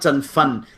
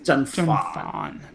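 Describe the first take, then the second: First: The second syllable has a short vowel. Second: The second syllable has a long vowel. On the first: The speaker calls it wrong. "It's not Zhen Fun" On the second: The speaker calls it right. "So like a double A, like a long"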